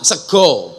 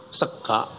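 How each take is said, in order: First: "sego" said with a round o vowel; "sego" the Javanese way with o. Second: "sega" said with an open a vowel; "sega" the ngapak way with a. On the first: Demonstrating Javanese rice word to the audience, round o. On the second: Demonstrating ngapak rice word to the audience, open a. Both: Shown as a demonstration.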